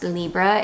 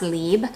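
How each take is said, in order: First: It ends with a spoken final vowel. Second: It ends without a spoken final vowel. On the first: The speaker calls it wrong. "it's not pronounced Libra" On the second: The speaker calls it right. "it's just pronounced Lib"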